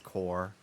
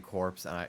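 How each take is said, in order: First: The word ends without a 'ps' sound. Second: The word ends with a 'ps' sound. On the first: The speaker calls it right. "I know it's core" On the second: The speaker calls it wrong. "I am trying so hard to not say corpse"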